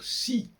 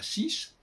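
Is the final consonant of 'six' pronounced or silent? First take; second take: silent; pronounced. First: The final consonant is left silent. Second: The final consonant is pronounced. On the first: "il faudrait dire si" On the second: "et pas six"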